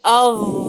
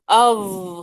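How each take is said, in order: No difference in how they are said.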